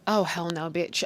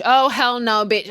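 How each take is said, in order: First: Low, soft disbelief; restrained, simmering acted refusal; low indignation. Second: Loud, outraged acted refusal; hammed-up sassy outrage; loud indignation. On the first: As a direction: refuse it quietly under your breath. Acted indignant reaction, first take. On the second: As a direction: burst out with the refusal. Same reaction, repeated louder.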